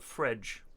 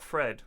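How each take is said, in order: First: The name ends with a j sound. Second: The name ends with a plain d sound. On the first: The speaker calls it right. "I think that's how you pronounce it in Portuguese" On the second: The speaker calls it wrong. "Not Fred"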